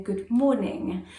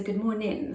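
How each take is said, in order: First: "Good morning." said slowly with the final g sounded, morning-ng; slow, careful "Good morning." with a clear -ing ending. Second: "Good morning," with the g dropped, mornin'; "Good morning," said the West Country way, ending in -in not -ing. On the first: West Country speaker showing her new polished "Good morning." with the g sounded, slow. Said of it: "I was doing things like saying". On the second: Speaker showing how West Country folk say "Good morning," without the g. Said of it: "we don't put a G on the end". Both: Shown as a demonstration.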